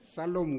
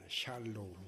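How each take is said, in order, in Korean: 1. 이 단어는 평범한 s 소리로 시작해요. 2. 이 단어는 sh 소리로 시작해요. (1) "그 발음 잘해야 돼요. 살롬 그러면은" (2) "샬"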